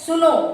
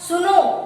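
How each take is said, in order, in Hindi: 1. यह शब्द छोटे स्वर के साथ जल्दी बोला जाता है। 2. अंतिम स्वर लंबा खींचा जाता है, जैसे दूर से पुकारना। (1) "ये तो अचानक हमने बोला" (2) "हम ऐसे बोलते ना सुनो"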